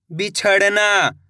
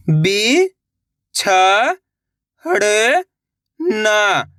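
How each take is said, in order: First: Said in the usual way. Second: "बिछड़ना" stretched very slowly by syllable; sounding out slowly. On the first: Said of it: "लाके पढ़ना है". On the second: Shown as a demonstration. Teacher sounding out a word for young readers. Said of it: "एक अक्षर का उच्चारण करके".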